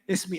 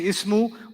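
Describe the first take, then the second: First: The word ends in an i vowel. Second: The word ends in an u vowel. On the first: The speaker calls it right. "we say ismi" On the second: The speaker calls it wrong. "we don't say ismu"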